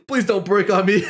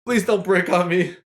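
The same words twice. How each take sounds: First: Laughing while pleading; laughing plea. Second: Said in the usual way. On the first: Real, not acted.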